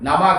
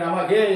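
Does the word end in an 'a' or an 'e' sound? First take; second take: a; e. First: The word ends with an 'a' sound. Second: The word ends with an 'e' sound. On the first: The speaker calls it right. "நமக என்று சொல்வதற்கு" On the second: The speaker calls it wrong. "நமகே என்று சொன்னால் பொருள் மாறி போயிடும்"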